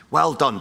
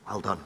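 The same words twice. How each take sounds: First: Louder, higher "Well done" with a punch on "Well"; mock-cheering congratulations; mock praise. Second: Much softer, dry "Well done"; soft deadpan praise for the lazy; sarcastic. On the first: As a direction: announce it like fake applause. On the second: Acted. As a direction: drop it quietly, deadpan mockery.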